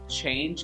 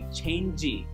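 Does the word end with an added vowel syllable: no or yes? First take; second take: no; yes. First: The word ends cleanly on the j sound. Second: An extra vowel syllable follows the j sound. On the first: The speaker calls it right. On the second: The speaker calls it wrong.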